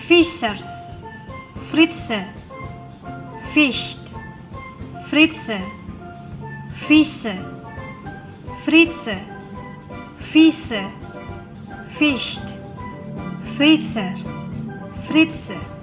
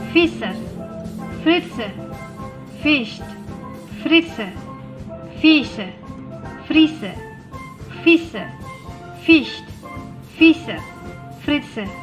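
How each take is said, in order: First: It is said at a slow, careful pace. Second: It is said at a somewhat quicker pace. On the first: "kalian ikutin saya ya" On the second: "Lebih cepat sedikit"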